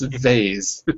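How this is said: It is said with an American accent. "I'm American. So I say"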